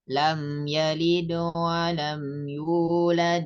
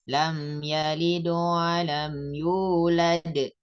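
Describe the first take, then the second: First: The final d bounces lightly, flowing straight on. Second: The final d bounces strongly before a stop. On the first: The reading continues into the next verse. "qalqalah sughra ini dibacanya tidak terlalu kentara" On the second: The reading stops at the end of the verse. "pantulannya lebih besar atau lebih keras"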